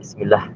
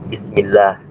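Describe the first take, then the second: First: The vowel in 'lah' is kept short. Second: The vowel in 'lah' is held long. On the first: The speaker calls it wrong. "Kadang orang menyebutkan Bismillah, itu salah" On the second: The speaker calls it right. "ada satu mat yang orang sering lupa, yaitu lafaz Allah Ta'ala"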